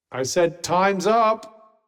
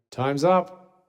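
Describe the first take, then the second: First: Slow, drawn-out, pressing on the word up; a slow, exasperated second call that leans on up; insistent repeat. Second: Said in the usual way. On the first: Acted. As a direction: repeat it slowly, losing patience.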